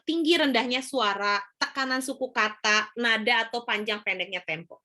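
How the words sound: The pitch rises and falls with varied rhythm. The speaker calls it right. "ini kan Ibu tinggi rendah suaranya kelihatan ya"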